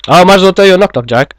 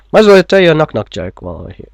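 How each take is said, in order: First: Rushed, high-pitched and loud; fast and high. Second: Fast. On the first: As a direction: blurt it out quickly and high. Same line, higher and faster. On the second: Fast excited aside, repeated. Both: Acted.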